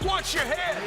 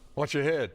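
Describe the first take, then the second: First: It is said loudly, with force. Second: It is said softly, without force.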